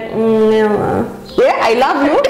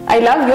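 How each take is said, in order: First: It is said slowly, with clear reluctance. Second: It is said at a normal, ready pace. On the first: Something is wrong and she is unhappy. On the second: All is well between them.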